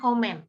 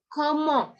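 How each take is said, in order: First: It ends with a clear n sound. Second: It ends in a nasal vowel with no consonant. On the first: The speaker calls it wrong. "bukan komen" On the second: The speaker calls it right. "comment itu dibaca mong"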